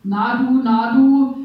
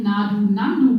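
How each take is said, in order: First: Put-on loud, slurred drunk call, getting louder; drunken slur. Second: "Na du, Nandu" with the second "Nandu" said as the bird's name; Nandu reading. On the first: Drunk man in the night bus calls to her, slurring loudly. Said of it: "lallte mir ein Daunenjackenträger". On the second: Shown as a demonstration. She replays the drunk's call as the bird name "Nandu". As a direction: run "Na du" into "Nandu" as one word. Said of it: "Es könnte aber auch ein".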